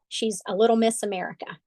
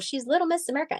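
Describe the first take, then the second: First: It is said scornfully, not in a nice way. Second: It is said admiringly, in a nice way.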